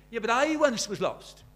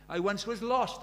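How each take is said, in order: First: I punched high and loud; stress on I. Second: Said in the usual way. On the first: Shown as a demonstration. Preacher showing the congregation where to stress the hymn line. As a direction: lean hard on the word I, not on lost. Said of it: "but tonight you're singing". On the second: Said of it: "where you put the emphasis".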